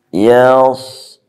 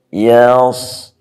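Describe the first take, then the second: The two takes are said the same way.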